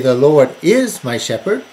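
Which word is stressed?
is. The stress is on "is".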